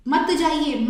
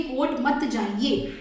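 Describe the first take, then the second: First: मत punched louder; stress on मत. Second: Slow, drawn-out मत; stress on मत. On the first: Teacher hammering मत for students, louder stress. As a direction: hit मत hard and loud. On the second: Teacher drawing attention to मत, slow stress. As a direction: lean on मत slowly. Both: Shown as a demonstration. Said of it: "मत पे ध्यान दो".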